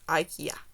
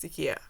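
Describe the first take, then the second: First: It is said with the usual English pronunciation. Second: It is said with a non-English pronunciation. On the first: The speaker calls it wrong. "not IKEA" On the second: The speaker calls it right. "in two of my languages, it's pronounced IKEA"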